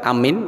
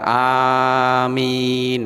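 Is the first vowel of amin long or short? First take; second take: short; long. First: The first vowel is said short. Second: The first vowel is drawn out long. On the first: It means to believe. "itu artinya percaya" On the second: It asks God to accept the prayer. "nah itu ya Allah terimalah permohonan kami"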